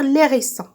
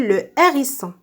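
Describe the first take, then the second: First: The article is elided and linked to the noun. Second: The article is said in full, without linking. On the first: The speaker calls it wrong. "c'est faux de dire l'hérisson" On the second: The speaker calls it right. "On dit le hérisson"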